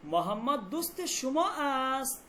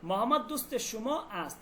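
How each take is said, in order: First: It is said with a question intonation. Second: It is said with a statement intonation. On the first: It asks a question. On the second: It states a fact.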